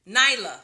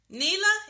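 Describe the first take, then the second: First: The first vowel sounds like 'eye'. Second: The first vowel sounds like 'ee'. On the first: The speaker calls it right. "night, night, like Nyla" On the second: The speaker calls it wrong. "Let me know if I said it right"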